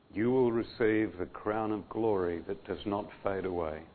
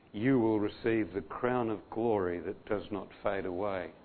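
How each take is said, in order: The two takes are said the same way.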